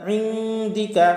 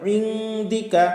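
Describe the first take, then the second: Both takes have the same delivery.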